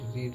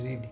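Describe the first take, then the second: First: The vowel is long, like 'reed'. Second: The vowel is long, like 'reed'.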